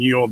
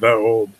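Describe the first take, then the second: First: The first word begins with a y sound. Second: The first word begins with a th sound. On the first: The speaker calls it wrong. "people are always saying like ye old this" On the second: The speaker calls it right. "the actual pronunciation they used at the time"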